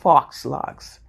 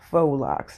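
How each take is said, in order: First: The first word sounds like 'fox', with x. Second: The first word sounds like 'foe', no x. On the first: The speaker calls it wrong. "not fox locks" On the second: The speaker calls it right. "the proper term is faux locks"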